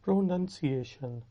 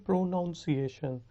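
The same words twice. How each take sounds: First: "پروننسیشن" with a short "nun" in the middle; correct pronunciation. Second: "پروناؤنسیشن" with an "ow" in the middle, pro-NOUN-see-ay-shun; common mispronunciation. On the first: Teacher correcting learners, "پروننسیشن" with short "nun", not "noun". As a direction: say "پروننسیشن" as pro-nun-see-ay-shun, no "ow". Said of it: "اس کا صحیح تلفظ ہے". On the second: Teacher showing a common mistake, "پروناؤنسیشن" with pronounce's "ow" vowel. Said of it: "غلطی کرتے ہیں، اس کو کہتے ہیں". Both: Shown as a demonstration.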